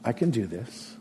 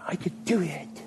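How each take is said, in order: First: Softer "I can do this." with a gentle rise; humble trust in "I can do this."; quiet sincere faith. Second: Higher, self-confident "I could do it."; boastful self-reliance. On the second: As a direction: brag "I could do it." on your own strength. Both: Shown as a demonstration.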